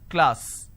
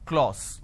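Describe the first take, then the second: First: The vowel is an a sound. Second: The vowel is an o sound. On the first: The speaker calls it right. "So I have K, L, A, S, class. This is how it's pronounced" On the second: The speaker calls it wrong. "people make a mistake and they make it O"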